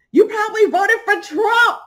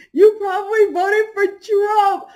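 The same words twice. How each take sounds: First: High, loud, teary shriek; shrieked insult. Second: High, slow, mocking echo; slow mocking repeat. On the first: Retold or imitated. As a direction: screech it like you're losing it. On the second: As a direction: drag the insult out slowly. Repeats insult, slower.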